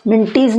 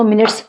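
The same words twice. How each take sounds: First: मिनटीज with "teez" at the end; wrong spelling pronunciation. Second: मिनट्स ending in a plain "ts"; silent e. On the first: Teacher showing what not to say, मिनटीज with sounded ee. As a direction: turn the e in मिनटीज into a long ee. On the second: Teacher giving students the correct word, मिनट्स with silent e. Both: Shown as a demonstration. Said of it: "मिनटीज नहीं बोलेंगे".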